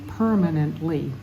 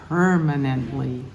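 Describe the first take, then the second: The two takes are said the same way.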